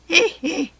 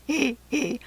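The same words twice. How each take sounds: First: High, loud villain's tittering hee hee; high gleeful giggle. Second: Softer giggle. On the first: Jack Frost giggles at the fairies' chaos, high and loud. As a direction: start the laugh high and bright. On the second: Jack Frost giggles on, softer, watching the chaos. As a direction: let the giggle drop back. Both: A narrator's reading. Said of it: "beside himself with laughter".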